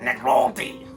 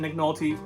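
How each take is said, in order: First: It is said in a put-on, imitated voice. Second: It is said in the speaker's natural voice.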